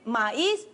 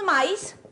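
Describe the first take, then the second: First: The two vowels fall in separate syllables. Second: The two vowels merge into one syllable. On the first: The speaker calls it right. "sino que decimos" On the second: The speaker calls it wrong. "que no decimos maíz"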